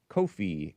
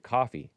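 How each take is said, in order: First: The name is not said like the word coffee. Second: The name is said exactly like the word coffee. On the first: The speaker calls it wrong. "I pronounce it that way. They don't mean for you to pronounce it that way" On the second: The speaker calls it right. "they mean for you to pronounce it coffee"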